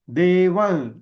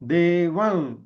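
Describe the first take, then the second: The two takes are said the same way.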